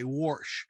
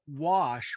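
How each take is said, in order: First: The word is said in a local Pittsburgh accent. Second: The word is said in a standard accent. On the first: This is how locals say it. "we say" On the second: This is how most people say it. "Instead of saying uh"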